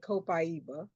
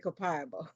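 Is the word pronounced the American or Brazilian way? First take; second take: Brazilian; American. First: It is pronounced the Brazilian way. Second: It is pronounced the American way.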